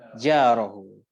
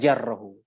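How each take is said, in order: First: The first vowel is long. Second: The first vowel is short. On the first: The speaker calls it right. "falyukrim jarahu" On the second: The speaker calls it wrong. "bukan jarrahu"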